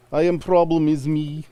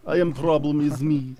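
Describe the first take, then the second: First: High, slow, hammed-up Russian accent; a broad, clumsy Russian accent; bad Russian accent. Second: Bad Russian accent. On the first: Joking cohost turns the song line into a bad Russian accent. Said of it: "Russian accent". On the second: Repeating the joke line in a bad Russian accent. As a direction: lean into a clumsy Russian accent. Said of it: "If you had a bad Russian accent".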